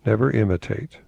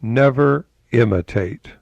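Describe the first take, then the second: First: Said in the usual way. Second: Never imitate, slow and leaned on; emphatic quote. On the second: Host quoting Emerson, pressing the point. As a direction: drive the words home. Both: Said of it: "and get this".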